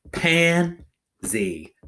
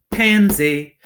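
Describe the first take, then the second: First: "Pansy" split into two beats, pause between; syllables pounded out. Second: Said in the usual way. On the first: Shown as a demonstration. Teacher pounding a word for pupils, syllables apart. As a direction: pound out "Pansy" one loud syllable at a time. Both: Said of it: "Let's pound it".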